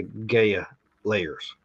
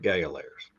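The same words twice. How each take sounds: First: "Gaia" with a long A, GAY-uh. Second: "Gaia" with a long I, GUY-uh. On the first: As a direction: say "Gaia" as GAY-uh, first syllable rhyming with day. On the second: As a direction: say "Gaia" as GUY-uh, first syllable rhyming with eye. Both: Real, not acted. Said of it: "How do you say it?".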